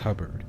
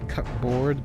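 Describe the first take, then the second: First: It is said blended together as one word. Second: It is said as two separate words, cup and board. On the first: The speaker calls it right. "I know it's pronounced cupboard" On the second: The speaker calls it wrong. "I was going to say cupboard ... because I saw the comp compound word"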